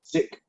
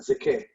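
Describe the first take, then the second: First: The vowel is short and plain. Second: The vowel glides like a long diphthong. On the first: The speaker calls it right. "following the short vowel" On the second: The speaker calls it wrong. "not zike"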